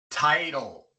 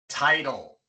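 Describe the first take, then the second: The two takes are said the same way.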